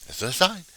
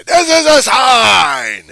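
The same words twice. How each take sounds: First: Higher-pitched, questioning lift at normal volume; milder repeat. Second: Long, high shriek; screaming protester. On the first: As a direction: repeat it high, rising at the end. Follow-up to the protester's scream. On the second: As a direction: scream it slowly in someone's face. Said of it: "come up to one of the teachers and say". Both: Acted.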